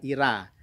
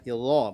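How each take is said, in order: First: The r is light with a bright vowel. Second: The r is heavy with a dark vowel. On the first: The speaker calls it wrong. "bukan ira" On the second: The speaker calls it right. "ro-nya dibaca tafkhim atau tebal"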